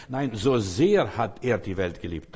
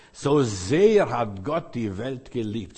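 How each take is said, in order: First: Slow, "so sehr" hit hard and falling; stress on so sehr. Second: "So sehr" drawn out slowly, each word weighed; stress on so sehr. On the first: Preacher driving home the verse to the congregation, emphatic. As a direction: punch "so sehr", then let the line fall. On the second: Preacher reading John 3:16 to the congregation, slow and weighty. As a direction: read the verse slowly, leaning on "So sehr". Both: Shown as a demonstration. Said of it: "Da liegt die Betonung auf so sehr".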